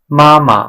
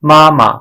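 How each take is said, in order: Both takes have the same delivery.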